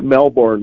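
Melbourne is said the way Americans say it. The speaker calls it wrong. "It's not Melbourne like we would pronounce it"

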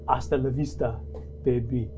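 It is said in a strong, exaggerated accented impression. The speaker calls it right.

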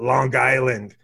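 It is said in a Long Island accent.

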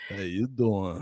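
It is said in a suggestive Joey Tribbiani impression.

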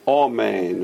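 The first vowel is a long oh.

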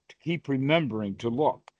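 The stress is on "remembering".

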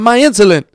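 It is said in an imitated adult man's voice. "do it in the style of the guy from Con Air"

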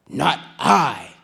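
It is said in a lazy dog's voice.

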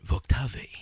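The name is said in a French-sounding way.

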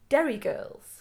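It is said in a put-on character voice.

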